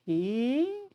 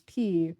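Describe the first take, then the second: First: P drawn out with a high upward glide; rising tune on P. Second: Said in the usual way. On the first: Shown as a demonstration. Showing how the new school said it, P with a long rising glide. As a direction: stretch P and slide the pitch steeply up like a question. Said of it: "Like that". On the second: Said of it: "I can't even do it".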